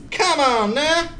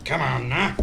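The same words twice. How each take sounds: First: High, sing-song mock plea; high silly voice. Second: Said in the usual way. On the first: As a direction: squeak it like a cartoon. Repeat in silly voice.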